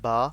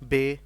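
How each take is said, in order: First: Said in an Arabic accent, ending in 'ah'. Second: Said in an Urdu accent, ending in 'ay'. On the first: The speaker calls it right. "अरबी का लहजा इस तरह होता है" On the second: The speaker calls it wrong. "ये वाला एक्सेंट हमने यूज़ नहीं करना"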